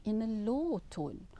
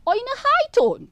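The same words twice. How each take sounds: First: Low tone. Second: High tone. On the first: Lecturer demonstrating tone of voice to students, low tone. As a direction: voice dropped low on "low tone". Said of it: "speaking in a low tone". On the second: Lecturer demonstrating tone of voice to students, high tone. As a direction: voice jumps up high and loud on "high tone". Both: Shown as a demonstration.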